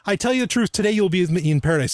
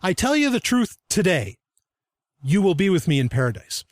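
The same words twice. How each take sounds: First: The pause comes before the word today. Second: The pause comes after the word today.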